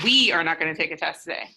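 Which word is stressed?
We. The stress is on the word we.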